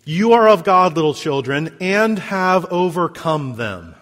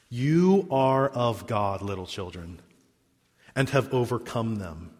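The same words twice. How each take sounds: First: Louder, stressing "of God" with a falling close; emphatic proclamation. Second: Tender reading. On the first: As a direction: proclaim it boldly to the congregation. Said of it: "Look at the next phrase". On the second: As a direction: read it softly, like comfort to children. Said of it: "As I read verse four". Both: Shown as a demonstration.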